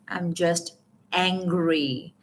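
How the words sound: The word angry is said with strong stress.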